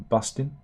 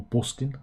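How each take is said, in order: First: Said in the usual way. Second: "bustin'" as Brummie "bostin'"; Birmingham accent. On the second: Shown as a demonstration. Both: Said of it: "as they say, up in Birmingham".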